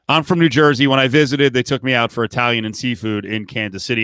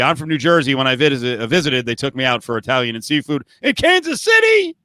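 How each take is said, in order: First: It is read in a plain, neutral tone. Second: It is said scornfully, as if insulted.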